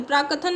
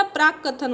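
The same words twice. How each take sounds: First: प्रकथन with a single k; wrong form. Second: प्राक कथन with a doubled k; held double k in प्राक कथन; correct form. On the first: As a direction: say प्रकथन as "pra-kathan". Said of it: "प्रकथन नहीं होता". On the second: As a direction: say प्राक कथन as "praak-kathan". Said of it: "प्राक कथन होता है". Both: Shown as a demonstration.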